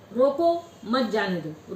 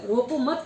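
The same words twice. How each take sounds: First: "रोको" said slowly and stressed, then a pause before "मत जाने दो"; pause after roko. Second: "रोको मत" said together with stress on "मत", then a stop; pause after mat. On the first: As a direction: break the phrase right after "रोको", as if there were a comma. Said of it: "रोको के बाद coma लगाएंगे तो अर्थ दूसरा हो जाएगा". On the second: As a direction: hold "रोको मत" as one unit and break after "मत". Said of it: "रोको मत" के बाद कोमा लगाएंगे तो अर्थ दूसरा हो जाएगा". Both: Shown as a demonstration.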